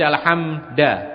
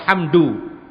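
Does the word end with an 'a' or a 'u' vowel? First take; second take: a; u. First: The word ends with an 'a' vowel. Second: The word ends with a 'u' vowel. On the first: The speaker calls it wrong. "tapi dibaca alhamda, dhammah keliru fathah" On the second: The speaker calls it right. "mestinya alhamdu"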